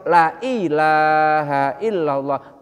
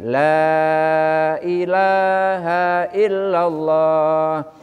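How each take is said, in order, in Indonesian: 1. Vokal pada kata pertama dibaca pendek. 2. Vokal pada kata pertama dibaca panjang. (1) "benar-benar ada Tuhan" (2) "la-nya panjang itu artinya tiada Tuhan"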